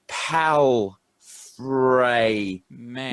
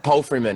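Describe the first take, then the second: First: The name is broken into separate syllables. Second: The name is said smoothly as one word. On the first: "Saying it in syllables" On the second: "is the correct way to say it"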